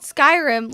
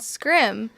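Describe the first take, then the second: First: The name is said with two full syllables. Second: The name is squeezed into one syllable. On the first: The speaker calls it right. "No, it's not. It's called Skyrim" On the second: The speaker calls it wrong. "it's called Scrim"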